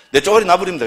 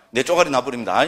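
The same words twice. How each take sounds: First: 쪼가리 said louder and faster through a laugh; laughing punchline. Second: Said in the usual way. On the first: Shown as a demonstration. Monk repeats the Gyeongsang word to the audience, laughing and louder. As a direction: toss the line out laughing, quick and loud. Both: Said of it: "경상도 뭐 쪼가리 이러면 됩니다".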